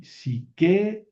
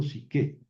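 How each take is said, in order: First: Psiquea with both vowels sounded, e then a; uncontracted wrong form. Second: Psique ending on a single e; contracted right form. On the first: Teacher showing the wrong uncontracted form psiquea. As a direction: say psiquea slowly, each vowel apart. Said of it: "yo no digo aquí". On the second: Teacher giving the correct contracted form psique. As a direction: say psique with the vowels merged into one e. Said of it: "digo psique". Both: Shown as a demonstration.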